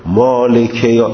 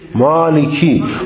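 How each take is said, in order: First: The word ends with a short 'e' vowel. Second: The word ends with a long 'ee' vowel. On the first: The speaker calls it wrong. "عرب ها اصلا مالکه نمیگن" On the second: The speaker calls it right. "مالکی یوم الدین مالکی"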